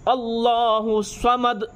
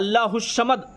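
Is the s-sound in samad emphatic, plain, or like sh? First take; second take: emphatic; sh. First: The s-sound is emphatic with rounded lips. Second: The s-sound comes out like sh. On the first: The speaker calls it right. "स्वाद से, मुंह को गोल करके" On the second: The speaker calls it wrong. "किसी का तो बड़ी शीन निकल जाता है"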